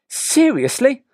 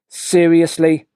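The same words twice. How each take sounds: First: Quick and interested, rising at the end. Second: Sarcastic, with a flatter and deeper sound. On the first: The listener is happy for his friend. "Will be quick and will rise at the end. He sounds interested" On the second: The listener doubts his friend's claim. "Nick's being sarcastic. So the sound is flatter and deeper"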